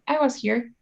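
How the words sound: The stress is on I.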